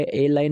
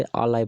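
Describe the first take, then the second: First: "ए लाई" said with a long "ए" (e) vowel, the wrong way; wrong pronunciation. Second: "अ लाई" with a short, open "अ" (uh) before "लाई"; correct pronunciation. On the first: Teacher shows students the wrong reading of "a lie", mistaken pronunciation. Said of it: "ए लाई नहीं पढ़ते". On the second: Teacher shows students the correct reading of "a lie", correct pronunciation. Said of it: "हमें ए का प्रयोग नहीं बल्कि आ का प्रयोग बोलना चाहिए". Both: Shown as a demonstration.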